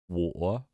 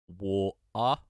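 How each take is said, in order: First: The T sound in the middle is dropped. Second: The T sound in the middle is pronounced.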